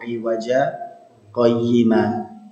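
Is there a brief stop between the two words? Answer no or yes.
yes. A brief stop without breath separates the words. The speaker calls it right. "kita berhenti sebentar tanpa nafas"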